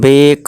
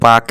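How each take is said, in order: First: The vowel sounds like 'ay'. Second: The vowel sounds like 'ah'. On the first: The speaker calls it right. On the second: The speaker calls it wrong.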